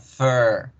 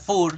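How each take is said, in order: First: The vowel has the English R-colored sound. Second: The vowel is read out Spanish-style. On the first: The speaker calls it right. "se pronuncia fur" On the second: The speaker calls it wrong. "No se pronuncia fur"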